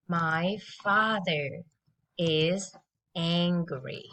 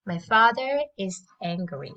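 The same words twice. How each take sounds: First: Slow, lower drill sentence; slow model. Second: Said in the usual way. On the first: Shown as a demonstration. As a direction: spell it out slowly for kids. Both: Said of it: "let's listen and repeat after me".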